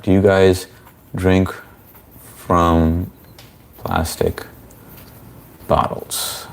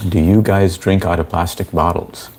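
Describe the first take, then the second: First: Slow, halting. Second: Said in the usual way. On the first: Real, not acted. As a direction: spell the question out slowly, pausing between words. Slowly repeats the question to chat.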